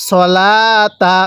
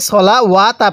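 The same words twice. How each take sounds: First: সলাতা very slow, long লা and no W sound; correct reading. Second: সলা ওয়া তা with the waw sounded as an extra ওয়া; mistaken reading. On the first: Teacher corrects the mistake, drawn-out recitation without waw. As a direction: stretch লা in সলাতা, then short তা. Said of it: "কিভাবে পড়তে হবে?". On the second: Teacher shows learners' common mistake, waw wrongly pronounced. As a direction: break it into সলা ওয়া তা at talking pace. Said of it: "এরকমভাবে পড়লে পড়াটা সহি শুদ্ধ হবে না". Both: Shown as a demonstration.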